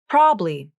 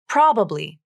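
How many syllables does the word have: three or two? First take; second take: two; three. First: It is said with two syllables. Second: It is said with three syllables. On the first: "You can pronounce it as two syllables" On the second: "Or you can pronounce the middle A"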